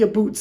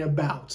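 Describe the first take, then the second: First: "about" said like "a boot"; accented "about". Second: Soft, low "about" with an ow vowel; corrected "about". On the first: Real, not acted. Host slipping into own pronunciation, "about" as "a boot". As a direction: say "about" with an oo vowel. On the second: Shown as a demonstration. Host correcting the word for listeners, quiet "about" with ow. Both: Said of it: "Sorry, about for, for y'all".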